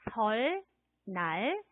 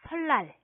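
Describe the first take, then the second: First: Two separate syllables, the second starting with n. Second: One linked word, the second syllable starting with l. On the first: This is how the word is written. "설, 날 이렇게 쓰는데" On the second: This is how the word is actually read. "뒤에 오는 니은이 리을로 소리가 납니다"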